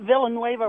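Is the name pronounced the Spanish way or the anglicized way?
anglicized. The name is pronounced the anglicized way. The speaker calls it wrong. "not Villanueva, whatever you're saying"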